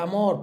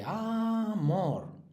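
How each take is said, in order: First: Said in the usual way. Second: "amor" stretched out, stress on MOR; golpe de voz final. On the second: Shown as a demonstration. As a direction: draw out "amor" as aaa-MOR. ("amor" alargado, con fuerza en mor) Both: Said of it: "tienen el golpe de voz aquí".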